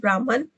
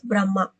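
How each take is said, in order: First: The word ends with an n sound. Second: The word ends with a vowel sound. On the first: The speaker calls it wrong. "it is wrong pronunciation" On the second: The speaker calls it right. "The actual pronunciation is Brahma"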